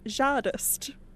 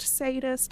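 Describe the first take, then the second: First: The name begins with a 'j' sound. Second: The name begins with an 's' sound. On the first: The speaker sounds out every letter because it looks fancy. "I pronounce that as Jardist" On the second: This is the pronunciation the author intends. "it's pronounced sadist and the, eh, the Z is silent"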